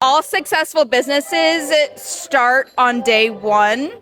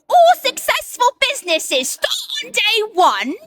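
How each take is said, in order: First: It is said in her normal accent. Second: It is said in a Cockney accent.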